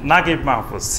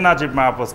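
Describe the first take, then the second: First: The first name has a hard g sound. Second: The first name has a j sound. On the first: This is how Egyptians say the name. "বলবে নাগিব Mahfuz" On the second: This matches how the name is written. "আরবিতে লিখবে নাজিব মাহফুজ"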